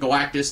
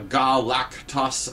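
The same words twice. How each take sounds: First: The name is said in the ordinary, familiar way. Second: The name is said in a strange, alien-sounding way. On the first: "they don't pronounce it Galactus" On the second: "a more alien-sounding pronunciation"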